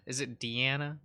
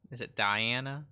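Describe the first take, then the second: First: "Deanna" with an EE in the first syllable; Deanna as dee-AN-uh. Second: "Diana" with a long I, like "die"; Diana as dye-AN-uh. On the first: Streamer guessing at a character's name, "Deanna" said dee-AN-uh. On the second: Streamer trying another way of the name, "Diana" said dye-AN-uh. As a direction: say "Diana" as dye-AN-uh, rising question. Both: Shown as a demonstration. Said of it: "I can never pronounce anything".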